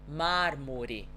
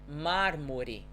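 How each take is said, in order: Both takes have the same delivery.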